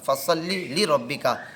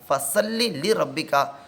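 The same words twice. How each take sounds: First: The s sound is heavy and emphatic. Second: The s sound is light and plain. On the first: So pray for your Lord. The speaker calls it right. "वहाँ पर फसल्ली स्वाद है" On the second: So unsheathe the sword for your Lord. The speaker calls it wrong. "अगर वहाँ पर कोई सिन पढ़ लेता है"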